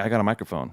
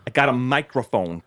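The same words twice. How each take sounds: First: The words are said casually, without careful articulation. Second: Each word is enunciated in an exaggerated, crisp way. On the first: "instead of him going like" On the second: "His thing was enunciating"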